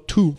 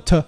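First: "to" with a full oo vowel; full form of "to". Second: "t" as a reduced schwa syllable, "tuh"; weak form of "to". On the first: Teacher showing learners what to avoid, full-vowel "to". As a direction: say "to" unreduced, like "too". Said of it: "不要读作to". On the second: Teacher showing learners the weak form, reduced "t". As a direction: say "t" short and unstressed, like "tuh". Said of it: "读作t". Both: Shown as a demonstration.

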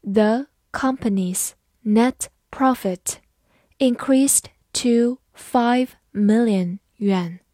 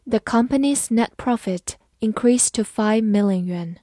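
First: Slow, word-by-word model sentence; measured read-along pace for learners. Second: Said in the usual way. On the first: Shown as a demonstration. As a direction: read slowly with a gap after each word. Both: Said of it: "慢读一遍".

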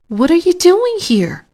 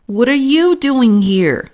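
First: High-pitched question leaning on "doing"; surprised question. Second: Louder, higher question with "you" punched; stress on YOU. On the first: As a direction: ask in surprise, high, with "doing" carrying the weight. Friend surprised to meet another guest. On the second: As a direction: throw it back, hitting the word "you". Second guest throws question back. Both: A narrator's reading.

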